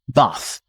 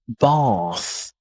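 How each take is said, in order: First: The vowel is short and flat, like 'bath'. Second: The vowel is long and open, like 'bahth'. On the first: "American tend to say with a small R sound" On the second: "British tend to say bath with a long R sound"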